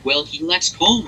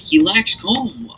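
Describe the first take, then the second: First: "Colum" in two syllables, KOL-um; correct Colum. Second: "Colm" as one syllable, KOHM, drawn out slowly; wrong Colm. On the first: Quoting the corrected gang member saying the name properly, two-syllable Colum. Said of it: "pronounced Colum". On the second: Quoting the game character's mispronounced name, slow single-syllable Colm. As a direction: drag the one-syllable "Colm" out, rhyming with home. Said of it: "consistently says Colm". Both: Retold or imitated.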